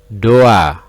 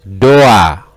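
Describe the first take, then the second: The two takes are said the same way.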